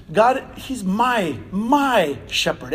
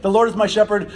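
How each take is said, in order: First: Slow, drawn-out MY, said twice with weight; stress on MY. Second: Said in the usual way. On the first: Shown as a demonstration. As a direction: dwell on the word "my" as deeply personal. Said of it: "just the slight inflection on that". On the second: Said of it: "it wasn't".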